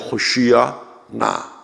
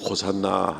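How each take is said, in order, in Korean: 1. hoshiya na처럼 두 부분으로 나누어 발음합니다. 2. 익숙한 형태인 hosanna로 발음합니다. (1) "본토 발음으로는 이제 호시야 나 이렇게" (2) "우리가 지금 부르기 쉽게 그냥 호산나 합니다만은"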